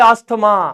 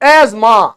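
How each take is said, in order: First: The middle t sound is clearly pronounced. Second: The middle t sound is left out. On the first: "हमारे जैसे आदमी बोले अस्थमा" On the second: "मतलब सीधा ये दो वर्ड साइलेंट हो गए"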